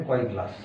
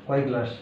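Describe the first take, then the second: The two takes are said the same way.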